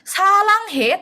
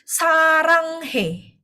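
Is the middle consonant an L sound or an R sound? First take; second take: L; R. First: The middle consonant is an L sound. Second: The middle consonant is an R sound. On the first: The speaker calls it wrong. "Bukan salanghe" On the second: The speaker calls it right. "dia menggunakan R, bukan L"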